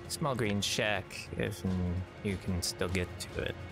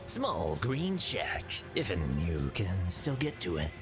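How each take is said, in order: First: It is read in a plain, ordinary voice. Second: It is read in a put-on character voice. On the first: The speaker calls it wrong. "You didn't read it in the proper voice" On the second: The speaker calls it right. "it's close enough"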